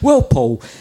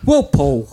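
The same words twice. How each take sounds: First: It is spoken in a Yorkshire accent. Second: It is spoken in a Cockney accent. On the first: "I'll just be a Yorkshire [name]" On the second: "That's my EastEnders accent"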